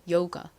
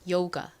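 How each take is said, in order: The two takes are said the same way.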